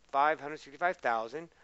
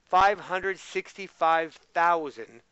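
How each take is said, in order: First: Said in the usual way. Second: Slow, louder reading out the number; slow emphatic reading. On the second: Shown as a demonstration. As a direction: read it out slowly and clearly. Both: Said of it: "repeats the number".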